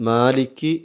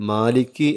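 Both takes have the same delivery.

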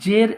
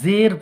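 First: The word begins with a 'j' sound. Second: The word begins with a 'z' sound. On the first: The speaker calls it wrong. "জের এই জিম দিয়ে পড়া যাবে না" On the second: The speaker calls it right. "তাহলে জের পড়তে হবে"

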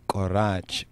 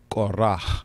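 First: The word ends with a harsh throat sound. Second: The word ends with a soft breathy sound. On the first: The speaker calls it wrong. "it's not Korach" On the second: The speaker calls it right. "but it's Korah"

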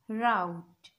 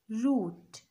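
First: It is said in an American accent. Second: It is said in a British accent.

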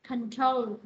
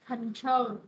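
The two takes are said the same way.

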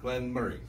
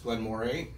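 First: The second word sounds like 'Murray'. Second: The second word sounds like 'more-ay'.

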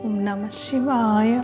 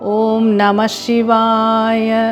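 First: The phrase is murmured in a low, soft voice. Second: The phrase is spoken aloud in a full voice. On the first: "முணுமுணுப்பாக" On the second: "வைகாரி மெத்தடில் ஒரு 3 முறையாவது சொல்லுங்கள்"

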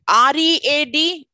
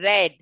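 First: The vowel is long, like 'reed'. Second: The vowel is short, like 'red'. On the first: It is the present tense. "READ is in the present tense" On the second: It is the past tense. "the pronunciation in the past tense goes for READ, red"

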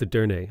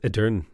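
First: The word ends with a pronounced final vowel. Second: The word ends on a consonant, no final vowel. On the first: The speaker calls it right. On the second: The speaker calls it wrong.

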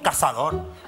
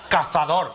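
First: The z is said as an s sound. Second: The z is said as a th sound. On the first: This is how the islanders say it. "pero no las pronunciamos. ... decimos cazador" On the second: This is how the islanders do not say it. "No decimos cazador"

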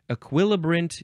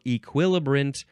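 First: The first vowel is not an ee sound. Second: The first vowel is an ee sound.

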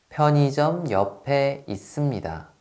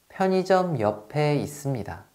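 No difference in how they are said.

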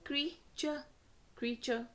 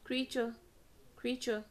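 Both takes have the same delivery.

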